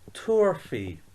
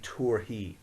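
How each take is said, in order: First: The last syllable starts with an f sound. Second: The last syllable starts with an h sound. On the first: "the way we pronounce this is tour fee" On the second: "instead of that fee, some people say he"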